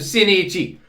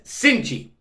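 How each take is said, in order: First: The vowel after the n is clearly pronounced. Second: The vowel after the n is nearly silent. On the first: "We got to pronounce the I after the N" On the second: "literally says Cinchi"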